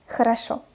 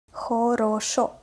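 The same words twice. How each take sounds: First: "Хорошо" quickly, unstressed O's reduced to A; fast, natural reading. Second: "Хорошо" slowly with all three O's full; slow, articulated reading. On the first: Teacher reads as a native, "Хорошо" fast with O as A. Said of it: "I pronounced the letter O as A". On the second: Teacher models for learners, "Хорошо" slow with clear O's. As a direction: spell out "Хорошо" syllable by syllable. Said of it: "what is articulated pronunciation". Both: Shown as a demonstration.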